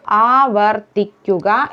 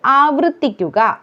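First: ആവർത്തിക്കുക syllable by syllable with "var"; correct pronunciation. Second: ആവർത്തിക്കുക with "vru" for "var"; wrong pronunciation. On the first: Teacher correcting learners, careful split ആവർത്തിക്കുക. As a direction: break up ആവർത്തിക്കുക as "aa-var-thik-kuka". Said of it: "എന്നതാണ്". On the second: Teacher showing the mistake, mispronounced ആവർത്തിക്കുക. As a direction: say ആവർത്തിക്കുക as "aavruthikkuka". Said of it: "എന്നതല്ല". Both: Shown as a demonstration.

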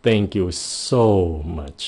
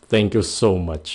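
First: Slow, with "so" drawn out and stressed; slow "Thank you so much", "so" stretched. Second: Said in the usual way. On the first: Shown as a demonstration. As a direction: lean on "so". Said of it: "cái chữ so này nha". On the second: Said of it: "Các bạn để ý nè".

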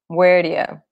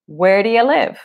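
First: "Where do you?" run together as "where-dya"; connected speech. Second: Said in the usual way. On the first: Shown as a demonstration. Teacher showing students "do you" becomes "dya". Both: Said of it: "Esse where do you vira where do you".

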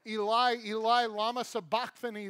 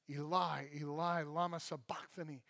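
First: Raised-voice scripture cry; projected, forceful cry to God; loud cry. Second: Low, soft repeat of the cry; hushed, lowered scripture quote; quiet recital. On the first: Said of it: "cried out with a loud voice". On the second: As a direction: say it softly and low, reflectively. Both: A narrator's reading.

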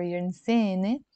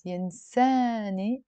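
First: Lebanese 'eh' vowels, 'yinseh-neh' for ينساني; ينساني the Lebanese way, 'seh' for 'saa'; Lebanese accent. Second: ينساني with an open 'ah', 'yinsaa-ni'. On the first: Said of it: "In the Lebanese accent". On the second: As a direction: open up the alif in ينساني to 'saa'. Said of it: "ينساني or ينساني". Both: Shown as a demonstration.

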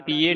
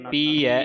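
First: ਪੀਏ ending in a close "ay"; the misreading ਪੀਏ, with a narrow final e; closed e ending. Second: ਪੀ ਹੈ as pee-ai, open final vowel; open ai ending. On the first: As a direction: say ਪੀਏ as pee-ay. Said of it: "ਇੱਥੇ ਪੀਏ ਨਹੀਂ ਪੜ੍ਹਨਾ". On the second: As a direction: say ਪੀ ਹੈ with a wide "eh" at the end. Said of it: "ਐੜੇ ਦੁਲਾਵਾਂ ਐ". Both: Shown as a demonstration.

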